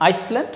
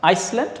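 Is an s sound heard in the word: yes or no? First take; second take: yes; yes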